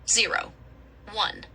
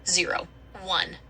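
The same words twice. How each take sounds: First: It is said slowly, as separate numbers. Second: It is said quickly, run closer together.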